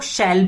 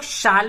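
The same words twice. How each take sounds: First: शैल with a short e vowel, shell; shall as shell. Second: शाल with a long open a, shaal; shall as shaal. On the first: Teacher showing students the other way, शैल as shell. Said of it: "बहुत लोग शैल भी पढ़ते हैं". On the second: Teacher showing students one way, शाल as shaal. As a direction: say शाल with the broad aa vowel. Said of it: "बहुत लोग शाल भी पढ़ते हैं". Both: Shown as a demonstration.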